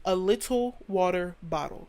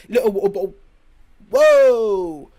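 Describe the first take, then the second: First: "water" said slowly with every letter sounded; slow, careful American "water bottle", crisp T's; clearly enunciated American. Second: Very loud exaggerated accent, T's dropped; mock glottal-stop accent. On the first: Shown as a demonstration. Showing standard American is easy to understand, careful enunciation. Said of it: "You hear the W, the A, the T". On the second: Mocking accents that drop letters, loud garbled accent. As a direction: blurt a mangled accent version, swallowing the consonants. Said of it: "What are you saying?".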